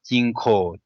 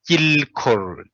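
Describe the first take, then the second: First: The first syllable ends with a nasal sound. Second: The first syllable ends with an l sound. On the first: It is the easier, common pronunciation. "but Jinko is for easy" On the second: Some people pronounce the written suffix. "They read the la, uh, the suffix"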